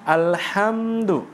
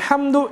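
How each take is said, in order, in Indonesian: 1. Bunyi m ditahan sebentar. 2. Bunyi m dilewati dengan cepat. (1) "kita di situ sejenak dulu ... begitu" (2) "jadi enggak sempat nikmati mim gitu"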